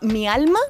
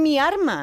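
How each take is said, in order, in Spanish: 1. La palabra se dice con sonido de l. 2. La palabra se dice con sonido de r. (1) "Hay que desconfiar. Eso es muy falso. Con R" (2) "la expresión mi arma"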